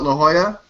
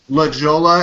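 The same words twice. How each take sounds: First: The name is given its usual local pronunciation. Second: The name is given the mispronunciation being mocked. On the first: It is the proper name of the place. The speaker calls it right. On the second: It mimics how someone else says it. The speaker calls it wrong.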